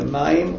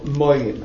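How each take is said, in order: First: The first vowel is a short a sound. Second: The first vowel is a long o sound. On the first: This is the ordinary form of the word. "patach, a, is a short vowel" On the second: This is the pausal form at a verse break.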